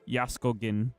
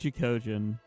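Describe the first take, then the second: First: The name is said with Polish pronunciation. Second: The name is said with English pronunciation. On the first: "if I want the Polish pronunciation" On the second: "technically I'm using the English pronunciation"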